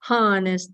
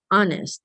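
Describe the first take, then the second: First: The word begins with an audible h sound. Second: The word begins with no h sound. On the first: The speaker calls it wrong. "Walang ganyang honest, honest, mali yun" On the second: The speaker calls it right. "a silent H"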